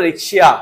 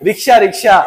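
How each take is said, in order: First: রিক্সিয়া with the full ia ending; right pronunciation. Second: রিক্সা said as the everyday rickshaw word; mock the mistake রিক্সা; wrong pronunciation. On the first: Teacher giving students the correct form. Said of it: "আমরা কি বলবো?". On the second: Teacher showing students the wrong way to say it. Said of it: "আমি রিক্সা বলতেছি?". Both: Shown as a demonstration.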